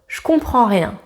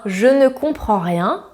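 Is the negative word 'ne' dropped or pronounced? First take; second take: dropped; pronounced. First: The word 'ne' is dropped entirely. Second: The word 'ne' is clearly pronounced.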